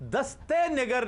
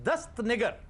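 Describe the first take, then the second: First: An extra 'e' vowel links the two words. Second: No extra vowel comes between the two words. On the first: The speaker calls it wrong. "दस्ते निगर नहीं" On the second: The speaker calls it right.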